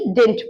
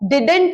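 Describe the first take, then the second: First: The word is said in a reduced form. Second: The word is said in its full form. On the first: "modern pronunciation में हम डिडंट बोलने की जगह डिड बोलेंगे" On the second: "डिडंट नहीं"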